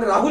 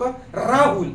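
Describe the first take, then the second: First: The r sound is said plainly. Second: The r sound is said with extra force. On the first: This is how Marathi speakers say it. "आपण राहुल म्हणतो" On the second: This is how Urdu speakers say it. "ती लोक राहुल असं म्हणतात. र वर काय करतात जोर देतात"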